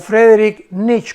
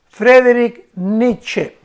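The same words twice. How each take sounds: First: The name is said with German-style sounds. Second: The name is said with Spanish-style sounds.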